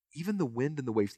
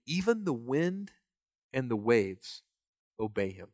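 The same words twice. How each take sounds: First: Said in the usual way. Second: Hushed amazement. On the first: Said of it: "restated by preacher". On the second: Retold or imitated. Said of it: "the disciples were amazed".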